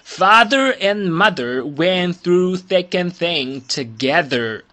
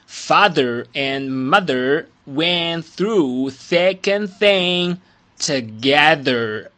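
First: The sentence is spoken at a normal pace. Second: The sentence is spoken at a slower pace.

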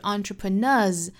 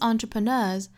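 First: The final z sound is said too heavily. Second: The final z sound is said lightly. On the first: The speaker calls it wrong. "但是也不要读得过重哈，不是 entrepreneurs" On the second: The speaker calls it right. "应该是 entrepreneurs"

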